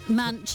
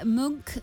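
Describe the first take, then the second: First: The name is said the common New Zealand way. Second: The name is said like the painter's surname. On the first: This is how most New Zealanders say it. "Munch is the most common. From New Zealanders" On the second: This is how fans of the painter say it. "Munk for people who are fans of Edvard"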